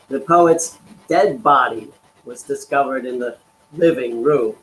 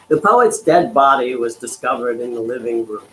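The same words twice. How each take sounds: First: It is read with marked, deliberate emphasis. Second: It is read plainly, without special emphasis.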